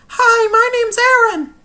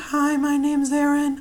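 First: It is said at a very high pitch. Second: It is said at a lower pitch. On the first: "go from there to doing it on a monotone" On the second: "start to take that down"

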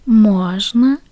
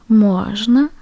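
No difference in how they are said.

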